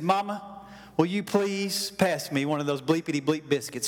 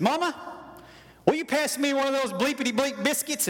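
First: Lower, politely falling request; mock-polite boy asking for biscuits; asking nicely. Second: Put-on higher, rising boy's voice blurting it out; cocky boy demanding biscuits; blunt demand. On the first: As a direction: play a kid trying to sound polite. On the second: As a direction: play a kid showing off his tough talk. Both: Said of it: "he didn't ask nicely".

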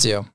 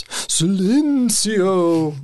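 First: Said in the usual way. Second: Slow, high, drawn-out spooky moan; ghost voice. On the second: Shown as a demonstration. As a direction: stretch it out like a ghost. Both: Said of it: "in a ghost voice".

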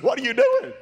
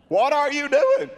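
First: High, louder disbelieving what are you doing, rising at the end; incredulous question. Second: High, louder what are you doing, falling firmly at the end; insistent question. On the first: Preacher retelling catching the man cutting off his cast, incredulous. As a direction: ask it in shock, voice climbing. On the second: Preacher retelling catching the man cutting off his cast, insistent. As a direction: press the question home, voice coming down. Repeated confrontation, falling tune. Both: Retold or imitated.

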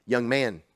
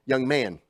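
No difference in how they are said.

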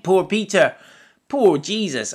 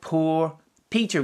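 First: Louder, higher cry of pity; emphatic pity. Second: Said in the usual way. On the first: Real, not acted. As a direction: lift it up, full of feeling. Pastor pities Peter, repeats it.

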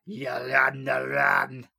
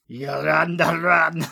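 First: Put-on Scottish accent, run with an open a. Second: Loud mock Scottish with a rolled run; Scottish accent. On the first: Host repeats Daisy's line in a Scottish accent. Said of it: "I'm quarter Scottish". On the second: Host mimics Daisy's line in a Scottish accent. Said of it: "not a bad attempt".

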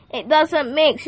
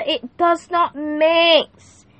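First: Said in the usual way. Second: Slow "It does not mix" with "not" pulled apart and leaned on; deliberate emphatic "not"; stress on NOT. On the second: Shown as a demonstration. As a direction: spell out "does not" slowly and firmly.

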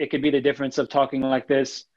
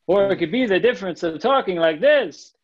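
First: Level pitch, no melody; flat monotone. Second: Sing-song, higher and livelier pitch swings; sing-songy. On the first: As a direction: drone it out without any tune. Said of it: "super monotone". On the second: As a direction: let the pitch bounce up and down like a song. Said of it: "super sing-songy". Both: Shown as a demonstration.

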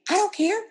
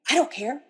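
First: High, loud exasperated retort; mad husband. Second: Mildly raised, irritated retort; mad husband. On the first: Mad husband rebuffing wife's repeated question, loudly exasperated. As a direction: imitate a husband flaring up. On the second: Mad husband to wife offering help, mildly irritated. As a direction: imitate a cross, dismissive husband. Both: Retold or imitated. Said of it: "my husband gets really mad".

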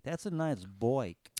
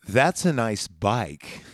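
First: Slow "bike" said like "boik"; slow, low "bike" said oddly; weird bike. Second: Slow, low deadpan line; Terminator deadpan. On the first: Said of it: "said the word bike a little weird". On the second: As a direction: drawl it slowly like a robot. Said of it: "He goes". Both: Retold or imitated.

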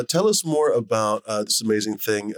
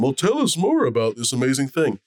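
First: Said in the usual way. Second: Higher-pitched, lightly put-on TV interest; dumb studio audience. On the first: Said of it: "Anyway, uh". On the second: Shown as a demonstration. Host asking for the studio audience's sake, feigned interest. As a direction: lightly play the curious TV host. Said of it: "play the dumb studio audience".

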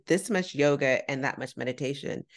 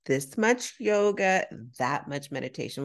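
First: Said in the usual way. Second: Simplified for non-English speaker. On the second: Retold or imitated. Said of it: "he didn't speak much English".

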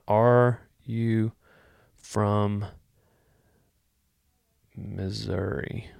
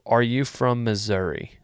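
First: Slow drawn question. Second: Said in the usual way. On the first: Shown as a demonstration. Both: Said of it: "That's what I'm gonna".

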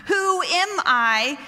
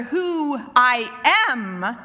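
First: "Who am I" slow, higher-pitched, as a question; questioning tune. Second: "Who I am" slow, weight landing on AM; statement tune. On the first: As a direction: ask "Who am I" with doubt. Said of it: "One is a question". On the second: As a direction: declare "Who I am" firmly, drawing out AM. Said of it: "who I am is a statement". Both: Shown as a demonstration.

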